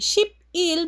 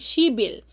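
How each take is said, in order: First: The middle consonant is a P sound. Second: The middle consonant is a B sound. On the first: "from ship il" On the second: "magiging shibil"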